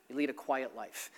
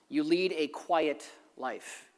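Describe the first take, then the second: First: Same words again, much softer; softer repeat. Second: "lead" drawn out and leaned on, slow; slow stress on lead. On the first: Pastor repeating it softly to the congregation, "lead" light. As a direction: let the line drop, "lead" gently stressed. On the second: Pastor stressing the point to the congregation, "lead" slow and weighted. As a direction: press hard on "lead", unhurried. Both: Shown as a demonstration.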